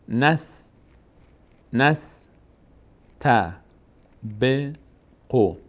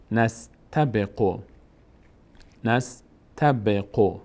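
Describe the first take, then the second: First: «نس، ت، ب، قو» in separate syllables with long gaps; syllable-by-syllable reading. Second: «نستبقو» slowly joined as one word; joined slow reading. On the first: Teacher sounding out a word for learners, syllable by syllable. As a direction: break it up: نس... ت... ب... قو. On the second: Teacher reading the assembled word to learners, slowly joined. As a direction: blend نس-ت-ب-قو into a measured whole. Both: Shown as a demonstration. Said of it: "فتحهٔ نون میچسبه به سین".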